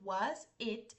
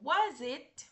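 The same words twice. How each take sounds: First: The two words are said separately with a break. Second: The two words run together as one. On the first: "Son dos palabras separadas" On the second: "las podemos unir y sonaría como was it"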